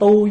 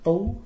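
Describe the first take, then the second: First: The syllable is said on a level tone. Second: The syllable is said on a high rising tone.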